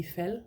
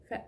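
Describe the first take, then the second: First: Fal ending smoothly with no catch in the throat; no glottal stop. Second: Fald with a tiny glottal catch at the end; glottal stop. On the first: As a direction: let fal run out without a break. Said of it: "Otherwise it would be fal". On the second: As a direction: cut Fald off in the throat at the end. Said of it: "with the glottal stop in it". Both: Shown as a demonstration.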